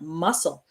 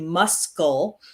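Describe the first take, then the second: First: No 'k' sound is pronounced in the middle. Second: A 'k' sound is pronounced in the middle. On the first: The speaker calls it right. "the C is silent" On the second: The speaker calls it wrong. "we don't say muscle"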